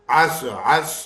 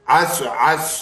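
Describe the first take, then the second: Both takes have the same delivery.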